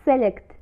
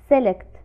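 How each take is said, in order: Both takes have the same delivery.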